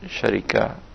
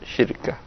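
First: The word is said with i after r. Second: The word is said with no vowel after r. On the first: "dan namirah berarti bacanya syarikah" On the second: "dan hikmah berarti cara bacanya syirkah"

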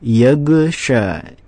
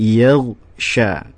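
First: The gh sound bounces with a short echo vowel. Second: The gh sound is smooth with no echo vowel. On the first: The speaker calls it wrong. "Tidak boleh dibaca yagsha" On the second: The speaker calls it right. "tapi yagsha. Enggak boleh ada pantulan e-nya"

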